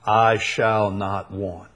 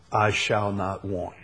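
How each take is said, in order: First: "I shall not want" drawn out slowly, each word weighted; slow bold declaration. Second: Said in the usual way. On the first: Shown as a demonstration. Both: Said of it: "That's a boldest statement".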